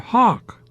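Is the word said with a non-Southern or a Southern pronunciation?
non-Southern. It is said with a non-Southern vowel. To local ears it sounds like a ham hock. "but you pronounced it hawk"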